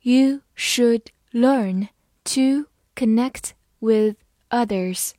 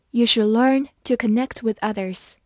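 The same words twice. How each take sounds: First: Word by word, clear pauses between words; deliberate, louder, evenly spaced teaching pace; slow read-along. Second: Said in the usual way. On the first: Shown as a demonstration. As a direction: read it slowly for learners to follow. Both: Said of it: "好，跟我慢读一遍".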